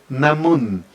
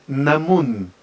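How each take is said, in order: Both takes have the same delivery.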